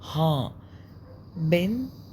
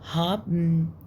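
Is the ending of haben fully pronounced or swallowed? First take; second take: full; swallowed. First: The final syllable is spoken out in full. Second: The final syllable is swallowed and muffled. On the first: "فتبقى ها آ ها بن بي اي ان بن" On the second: "الألمان بياكلوا ال ال اي ان دي تحسها مكتومة كده"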